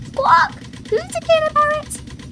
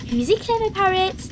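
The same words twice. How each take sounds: First: Very high, loud squawking parrot; Polly Parrot. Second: High, doting praise to a pet; Granny Pig. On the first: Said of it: "Polly copied". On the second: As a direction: coo it to the parrot. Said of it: "Granny Pig said". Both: A narrator's reading.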